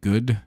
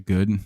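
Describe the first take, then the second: First: The vowel is long and heavily enunciated. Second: The vowel is short and plain. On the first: "I really enunciate double O's" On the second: "if I'm not paying attention, I'll just say good"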